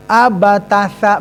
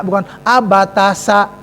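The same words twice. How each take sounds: First: "abatasa" slow, lisped th-sound on sa; the right tsa sound; "abatasa" with tsa, tongue between teeth. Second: "abatasa" with hissed s, tongue behind teeth; the wrong s in "abatasa"; contrasting the wrong s sound; "abatasa" with plain s. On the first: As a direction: bite the tongue on "sa". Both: Shown as a demonstration.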